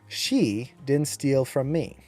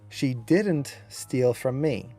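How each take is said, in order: First: The stress falls on the word she. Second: The stress falls on the word didn't. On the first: "you'll notice how I accented she" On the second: "You can see how the accent was on didn't"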